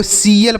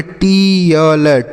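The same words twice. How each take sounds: First: सीएल with an S sound replacing the T; correct reading. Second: टीएल stretched very slowly with a hard T; टीएल read literally as "teee-yal", drawn out; mistaken reading. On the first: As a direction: say सीएल as "see-yal". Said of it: "इसे आपको सीएल पढ़ना है". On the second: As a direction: sound out टीएल slowly, T as in "tea". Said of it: "क्या इसे आप ऐसे पढ़ेंगे?". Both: Shown as a demonstration.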